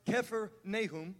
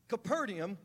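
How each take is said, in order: First: The name has an 'f' sound, Kephar Nahum. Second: The name has a 'p' sound, Capernaum. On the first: The speaker calls it right. "actually pronounced Kephar Nahum" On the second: The speaker calls it wrong. "We say it wrong"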